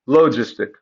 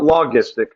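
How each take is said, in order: First: The g is pronounced as a soft sound. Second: The g is pronounced as a hard sound. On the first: The speaker calls it right. "It's the soft G sound" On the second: The speaker calls it wrong. "not logistic"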